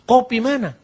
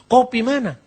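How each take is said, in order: First: It is said fast, squeezed into two words. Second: The same.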